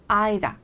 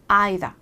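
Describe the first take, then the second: First: It is said in a British accent. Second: It is said in a British accent.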